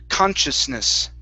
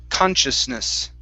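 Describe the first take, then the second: The two takes are said the same way.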